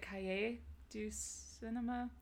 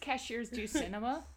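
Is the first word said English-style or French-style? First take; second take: French-style; English-style. First: The first word sounds French, like 'ka-yay'. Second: The first word sounds like English 'cashiers'. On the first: "Is that how you pronounce it?" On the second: "reader's pronunciation"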